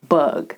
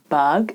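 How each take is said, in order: First: The vowel is a full 'uh' sound. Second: The vowel is an open 'a', as in 'bag'. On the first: The speaker calls it right. "it's bug. The sound uh originates in the back of your mouth" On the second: The speaker calls it wrong. "it's not bug"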